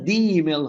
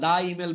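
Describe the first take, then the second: First: The word 'the' sounds like 'thee'. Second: The word 'the' sounds like 'thuh'. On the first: The speaker calls it right. "এটা দি email হবে, কারণ ভাওয়ালের আগে দি" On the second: The speaker calls it wrong. "অনেকে যারা দা email বলে ফেলছেন"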